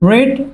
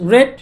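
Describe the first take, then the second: First: It has a long ee vowel, like reed. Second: It has a short e vowel, like red. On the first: The speaker calls it wrong. "রিড বলা যাবে না" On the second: The speaker calls it right. "রেড বলতে হবে"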